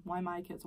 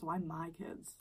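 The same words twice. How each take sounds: First: Said in the usual way. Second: Whispered. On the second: Real, not acted. Wondering aloud to viewers, whispered. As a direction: breathe the question out. Repeats question, second whispered.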